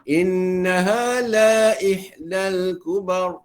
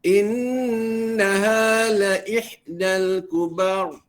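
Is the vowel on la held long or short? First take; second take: long; short. First: The vowel on la is lengthened. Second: The vowel on la is short. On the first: The speaker calls it wrong. "itu salah" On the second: The speaker calls it right. "Satu harakat saja. Eh, tidak dipanjangkan lagi"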